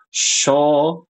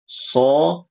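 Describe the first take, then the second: First: It begins with a 'sh' sound. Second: It begins with a sharp 's' sound. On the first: The speaker calls it wrong. "bacanya kayak shin" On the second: The speaker calls it right. "yang benar kalau so"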